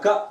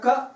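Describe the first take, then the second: First: The consonant is said alone without a vowel. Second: The consonant is said with a following vowel. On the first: This is the half letter sound marked by halant. "English वाला का" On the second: This is the full Hindi letter sound. "Hindi वाला का"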